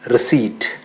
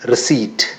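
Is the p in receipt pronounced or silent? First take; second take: silent; silent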